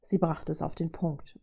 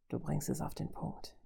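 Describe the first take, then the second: First: Said in the usual way. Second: Soft, throaty villain undertone. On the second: A narrator's reading. Robot conceding the woman's point, throaty menace. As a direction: say it hushed, from the throat. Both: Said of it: "sagte er kehlig".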